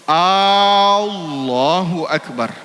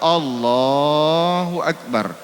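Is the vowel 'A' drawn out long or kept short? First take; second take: long; short. First: The 'A' vowel is drawn out long. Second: The 'A' vowel is kept short. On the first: The speaker calls it wrong. "dipanjangkannya A-nya, tidak sah" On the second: The speaker calls it right. "Disunnahkan jangan panjang-panjang betul"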